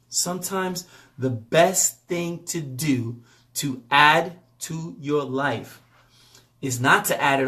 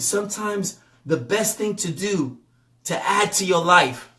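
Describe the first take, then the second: First: It is said slowly and deliberately. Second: It is said at a normal speed.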